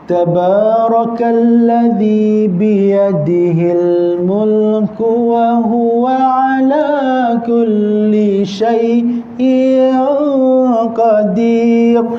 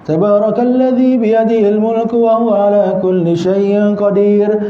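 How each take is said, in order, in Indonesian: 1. Dibaca perlahan, sepotong-sepotong. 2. Dibaca sangat cepat. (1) "seketul-seketul tapi pendek" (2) "cepat sangat"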